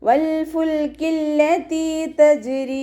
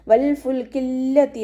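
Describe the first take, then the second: First: വൽ ഫുൽക്കില്ലതി തജ്രി chanted slow and high, joined through; slow higher chant joining വൽ ഫുൽക്കില്ലതി തജ്രി; correct recitation. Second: വൽ ഫുൽക്കില്ലതി stopped short, no following തജ്രി; വൽ ഫുൽക്കില്ലതി read halting as the error; wrong recitation. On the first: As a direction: carry ഫുൽക്കില്ലതി into തജ്രി in one sung line. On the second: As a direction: say വൽ ഫുൽക്കില്ലതി as the mistake, a touch slower. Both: Shown as a demonstration. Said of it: "എന്ന് ഓതരുത്".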